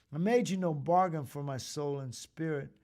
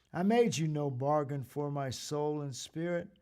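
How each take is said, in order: No difference in how they are said.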